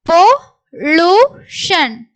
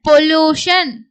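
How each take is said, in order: First: Slow syllables with gaps. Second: Said in the usual way. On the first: Shown as a demonstration. Teacher sounds out the word for learners, syllable by syllable. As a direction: break "pollution" into three separate beats.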